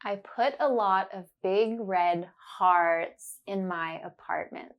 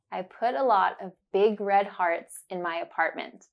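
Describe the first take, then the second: First: Deliberate, each ah sound clear; slow and careful. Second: Said in the usual way. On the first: Shown as a demonstration. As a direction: spell it out slowly for the learner. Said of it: "say it slowly and focus on the sound". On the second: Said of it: "you will hear it naturally".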